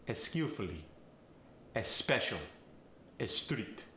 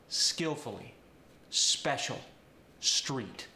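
First: Eh sound added before skillfully, special and street; Farsi accent. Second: Said in the usual way. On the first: Shown as a demonstration. Coach demonstrating a Farsi accent, eh-skillfully, eh-special, eh-street. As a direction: Farsi accent, a short eh in front of each S. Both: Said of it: "Words starting with an S will often get the".

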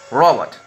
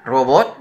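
First: "robot" with English stress "RO-bot". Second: Said in the usual way. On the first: Shown as a demonstration. Teacher contrasting Spanish and English "robot", English stress. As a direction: switch "robot" to English sounds. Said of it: "Lo pronuncio diferente". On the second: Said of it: "En vez de decir robot".

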